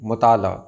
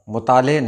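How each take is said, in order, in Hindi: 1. शब्द का अंत 'a' की आवाज़ से होता है। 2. शब्द का अंत 'e' की आवाज़ से होता है। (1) "हे की आवाज़ ऐसी होती है जो सुनाई नहीं देती है।" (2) "मुताले नहीं"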